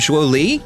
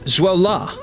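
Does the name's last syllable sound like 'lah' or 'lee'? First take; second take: lee; lah. First: The last syllable ends in an 'ee' vowel. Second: The last syllable ends in an 'ah' vowel. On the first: The speaker calls it wrong. "I've been pronouncing his name" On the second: The speaker calls it right. "according to them, it's"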